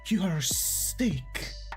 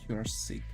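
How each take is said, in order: First: It is said in an excited, admiring tone. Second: It is said in a sorry, serious tone. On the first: The person is impressive. "if sick is positive" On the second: The person is ill. "I'm sorry, but I have to tell you that"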